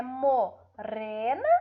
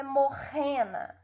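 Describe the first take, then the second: First: "morena" slowly with a trilled R; rolled tongue-tip R in "morena"; weak R. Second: "morrena" with a throaty H-like R; guttural R in "morrena"; strong R. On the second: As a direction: mispronounce morena as "morrena", R at the back. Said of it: "ou vai ter um som forte". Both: Shown as a demonstration.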